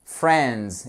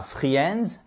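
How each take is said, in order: First: "friends" as one syllable, "frendz"; correct English pronunciation. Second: "friends" split in two, "free-ends"; wrong pronunciation. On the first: Teacher modelling the word for French learners, "friends" said as "frendz". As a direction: say "friends" with a short e and silent i, slowly. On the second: Teacher showing learners what to avoid, "friends" mispronounced as "free-ends". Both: Shown as a demonstration. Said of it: "et non pas friends".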